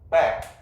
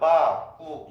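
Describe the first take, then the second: First: It ends cleanly on the final consonant. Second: It ends with an added vowel sound.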